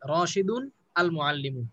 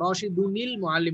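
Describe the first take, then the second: First: The words are said separately without a linking sound. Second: The words are joined with a linking -nil sound.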